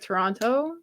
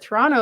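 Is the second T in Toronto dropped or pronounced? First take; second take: pronounced; dropped. First: The second T is clearly pronounced. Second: The second T is dropped. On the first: The speaker calls it wrong. "They pronounce the second T. ... So that's like incorrect" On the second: The speaker calls it right. "Toronto is correct"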